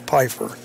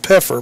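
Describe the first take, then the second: First: The first vowel sounds like 'eye'. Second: The first vowel sounds like 'eh'. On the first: "but I think it's Pfeiffer" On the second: "He keeps saying Pfeffer"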